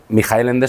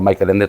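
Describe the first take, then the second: First: The 'ch' is a throaty, rasping sound. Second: The 'ch' is a plain, non-throaty sound. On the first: The speaker calls it right. "se pronuncia así" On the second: The speaker calls it wrong. "Yo lo había llamado Michael Ende toda mi vida"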